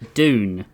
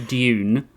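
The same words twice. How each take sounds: First: The word starts with a plain 'd' sound. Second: The word starts with a 'j'-like sound. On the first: This is how the others say it. "but you guys say Dune" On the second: This is the speaker's own way of saying it. "I say Dune"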